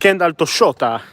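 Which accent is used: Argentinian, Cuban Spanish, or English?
Argentinian. It is said with an Argentinian accent. "But in Argentinian, it's"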